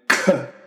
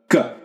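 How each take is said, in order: First: The k has a puff of breath. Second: The k has no puff of breath. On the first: The speaker calls it wrong. "not aspirated k" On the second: The speaker calls it right. "a dry k sound"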